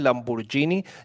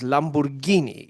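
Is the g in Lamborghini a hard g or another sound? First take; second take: other sound; hard g. First: The g is not a hard g sound. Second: The g is a hard g sound. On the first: The speaker calls it wrong. "en Colombia le dicen Lamborghini. Yo no sé por qué, eso no se pronuncia así" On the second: The speaker calls it right. "es italiano y la G y la H es Gui, eso es Lamborghini"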